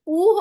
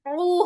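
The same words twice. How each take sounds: First: "उ" as an open, unconstricted oo; plain alif u. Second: "उ" squeezed from the middle of the throat; throaty ain u. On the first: Teacher contrasting alif with ain, plain open "उ". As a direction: let "उ" out freely with no throat squeeze. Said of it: "आइन और अलिफ में फर्क करना है". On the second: Teacher contrasting ain with alif, throaty "उ". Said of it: "आइन पेश उ होता है". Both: Shown as a demonstration.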